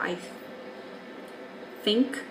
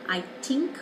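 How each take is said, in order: First: The word begins with an f sound. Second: The word begins with a t sound. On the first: "or an F" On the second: "a T"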